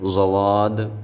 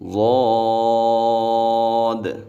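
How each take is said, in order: First: The letter is said with a w-glide. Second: The letter is said heavy and full. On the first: The speaker calls it wrong. "ज़वाद ऐसे नहीं पढ़ेंगे" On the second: The speaker calls it right. "इसको मोटा पढ़ना है"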